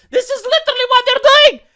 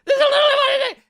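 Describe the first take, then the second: First: High, loud exasperated cry; outraged shout. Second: High, laughing disbelief; laughing shout. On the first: YouTuber shouting at the news. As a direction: yell it in disbelief. Outraged exclamation about article. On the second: YouTuber laughing at the absurd news. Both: Real, not acted.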